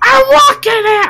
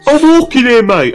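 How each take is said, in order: First: It is an attempted New York accent. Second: It is said in a British accent.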